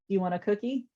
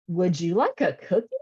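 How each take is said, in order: First: It is said in a normal adult voice. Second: It is said in a high, exaggerated voice.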